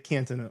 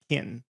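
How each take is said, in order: First: The middle T sound is clearly pronounced. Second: The middle T sound is dropped. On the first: It is how people in Minnesota say it. "in Minnesota we would say Canton" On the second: It is how locals in Ohio say it. "I would just say Canton. ... We didn't pronounce the T"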